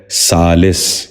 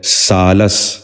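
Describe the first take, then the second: First: سالس ending "-lis", short i; short i before the final s of سالس; correct pronunciation. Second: سالس ending "-las", short a; short a before the final s of سالس; mispronounced. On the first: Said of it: "درست تلفظ ہے". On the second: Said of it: "غلط تلفظ ہے". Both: Shown as a demonstration.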